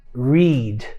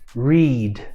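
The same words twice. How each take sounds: No difference in how they are said.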